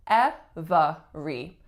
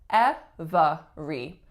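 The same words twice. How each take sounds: First: It is said with three separate syllables. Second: It is said with three separate syllables.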